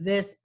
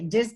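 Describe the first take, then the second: First: The word begins with a th sound. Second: The word begins with a d sound. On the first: "instead of" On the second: "we tend to substitute D for the T H sound"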